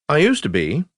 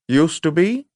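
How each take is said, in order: First: Said in the usual way. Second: "Used to be?" higher, rising at the end; questioning echo. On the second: Acted. Lieutenant querying the prisoner's answer, questioning echo.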